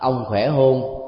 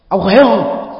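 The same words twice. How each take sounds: First: It is asked in a plain, ordinary tone. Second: It is asked in a harsh, scolding tone. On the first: It shows ordinary concern. "nếu mình nói bằng cái ngữ điệu đó, chúng ta thấy là đây là một sự quan tâm bình thường" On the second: It sounds like a rebuke. "như là một lời nạt nộ thôi"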